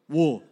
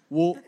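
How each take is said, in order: First: The word has a rounded 'oo' vowel. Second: The same.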